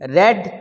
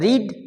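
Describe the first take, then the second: First: The vowel is short, as in 'bed'. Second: The vowel is long, as in 'need'. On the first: It is the past form of the verb. "ये वी टू है" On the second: It is the present form of the verb. "ये वी वन है"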